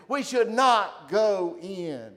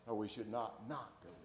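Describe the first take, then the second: First: "not" punched loud and slow, slow and firm; stress on not. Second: "not not" said softly and quickly, dropping low; quiet double not. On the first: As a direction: lean hard on "not" in "We should not go in". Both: Shown as a demonstration.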